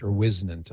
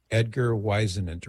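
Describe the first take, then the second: First: "Whisenant" with short i, like "wiz"; alternative name pronunciation. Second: "Whisenant" with long i, like "wise"; unsure name pronunciation. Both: Shown as a demonstration. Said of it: "I don't know how he pronounced".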